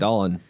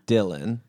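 First: The name is said in a Pittsburgh accent. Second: The name is said in a plain accent.

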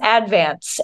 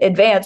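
First: It is said unlike the everyday word advance. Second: It is said like the everyday word advance. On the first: This is how locals say the town name. The speaker calls it right. "pronounced advance" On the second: This follows the spelling, and locals mock it. The speaker calls it wrong. "if you pronounce it advance, people are really mean to you about it"

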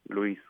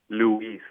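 First: Spanish pronunciation, without the English stress on U. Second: English pronunciation, with the stress on the U. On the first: "and Spanish is just Luis" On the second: "you being a speaker, English speaker, it'll be Luis. There's an emphasis on the U"

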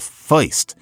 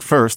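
First: The vowel is an 'oi'-like sound. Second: The vowel is a plain 'er' sound. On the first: "they say the feist" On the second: "instead of somebody saying first"

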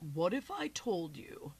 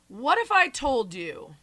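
First: The voice is deliberately lowered and deep. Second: The voice is at its normal pitch. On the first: The speaker calls it right. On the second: The speaker calls it wrong.

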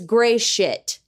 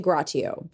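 First: The name is said with two syllables. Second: The name is said with three syllables. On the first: The speaker calls it right. "Nope. No lie. It's gray shit" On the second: The speaker calls it wrong. "I'm going to say Gratio"

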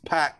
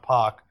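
First: The name has the American pronunciation. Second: The name has the hometown crowd's local pronunciation. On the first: "in America, it's very clearly they're like this Pac" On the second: "not Pac"

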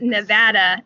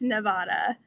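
First: The name is said the way locals say it. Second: The name is said the way outsiders say it. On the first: The speaker calls it right. "it is Nevada" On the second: The speaker calls it wrong. "not Nevada"

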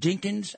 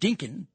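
First: The name ends with a final s sound. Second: The name ends without a final s sound. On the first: This is the name's actual form. The speaker calls it right. "it's pronounced Dinkins" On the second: This is how someone else said the name. The speaker calls it wrong. "I think that's the way you pronounced it"

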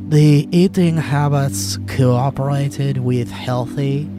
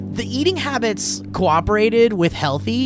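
First: It is read in a put-on foreign accent. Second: It is read in a natural everyday voice. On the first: "foreign guy voice" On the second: "just in your normal voice"

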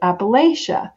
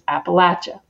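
First: It is said the outsiders' way, with 'lay'. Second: It is said the local Appalachian way, with 'latch'.

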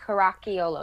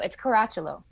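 First: The middle consonant is not a ch sound. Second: The middle consonant is a ch sound. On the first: The speaker calls it wrong. "a lot of people say like Caracciolo" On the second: The speaker calls it right. "You guys got the ch sound"

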